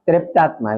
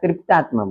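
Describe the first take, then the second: First: The first syllable has an 'e' vowel sound. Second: It is said with a Hindi pronunciation. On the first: "દક્ષિણ ભારતમાં ત્રેપ્તાત્મા એવું બોલે, ઉપર માત્ર જેવું બોલે" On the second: "હિન્દી વાળા તૃપ્તાત્મા બોલે"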